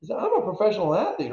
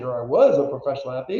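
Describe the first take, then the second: First: Said in the usual way. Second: "was" leaned on to correct himself; stress on was. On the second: Real, not acted. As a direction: correct yourself by pressing on "was".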